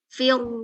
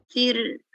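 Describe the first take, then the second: First: The r is rounded, with lips pushed forward. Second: The r is thin, with lips drawn back. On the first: The speaker calls it wrong. "jangan maju" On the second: The speaker calls it right. "ini tipis"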